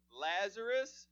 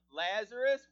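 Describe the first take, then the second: First: "Lazarus" called out louder; calling out Lazarus. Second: "Lazarus" shouted, much louder; loud call. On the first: Jesus calls Lazarus by name out loud. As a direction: call "Lazarus" from outside the tomb. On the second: Jesus calls Lazarus out of the tomb, shouting. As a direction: call "Lazarus" with full force. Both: Acted. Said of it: "and he's speaking to you now".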